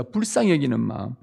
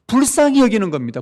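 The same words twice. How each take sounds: First: Said in the usual way. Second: 불쌍히 punched high and loud, falling after; stress on 불쌍히. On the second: Shown as a demonstration. Preacher drives home the key word, 불쌍히 loud and high. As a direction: hit 불쌍히 hard, the rest drops away. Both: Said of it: "네 동료를 불쌍히 여기는 것이".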